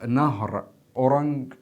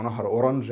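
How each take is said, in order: First: "اورنج" ending in a hard g; hard-g pronunciation. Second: "اورنج" ending in a soft zh; soft-j pronunciation. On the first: Teacher giving students one variant of a river's name, "اورنج" with hard g. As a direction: say "اورنج" with a final g as in "go". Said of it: "في ناس بتقولها اورنج". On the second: Teacher offering the other variant to students, "اورنج" with soft zh. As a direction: say "اورنج" with a final zh as in "beige". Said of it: "وفي ناس بتقولها اورنج". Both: Shown as a demonstration.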